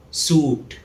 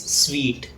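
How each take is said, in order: First: Suit said soot with long oo; common mispronunciation. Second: Sweet said sweet, rhyming with treat; correct pronunciation. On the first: Teacher showing the mistaken suit, long oo. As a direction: say suit without any w, soot. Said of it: "It's often mispronounced as". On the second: Teacher showing the correct sweet, like treat. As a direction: say sweet with w and long ee. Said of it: "The correct pronunciation is". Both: Shown as a demonstration.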